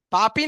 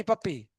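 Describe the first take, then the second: First: "पापी" said with a long open a in both syllables, paa-pee, no doubled p; wrong pronunciation. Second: "पप्पी" with a short a and a held double p, pup-pee; correct pronunciation. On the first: Teacher echoing a student's mispronunciation, "पापी" with long vowels. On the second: Teacher giving students the right form, short "पप्पी" with doubled p. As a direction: clip the first vowel and double the p in "पप्पी". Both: Shown as a demonstration. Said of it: "पापी नहीं".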